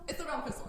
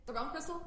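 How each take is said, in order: First: "It's the realm crystal." settled, falling at the end; "the" leaned on, then a firm drop; "It's the realm crystal." stated with a sure fall; confirming fall. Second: "The realm crystal?" asked, rising at the end; "crystal" lifted upward as if unsure; "The realm crystal?" with a questioning upturn; questioning rise. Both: Real, not acted.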